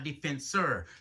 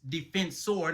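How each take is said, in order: First: The name ends with an 'er' sound. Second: The name ends with an 'or' sound. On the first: The speaker calls it wrong. "not Defensor" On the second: The speaker calls it right. "It's Defensor"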